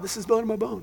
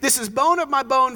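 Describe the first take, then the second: First: It is said calmly, without excitement. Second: It is said with overjoyed excitement.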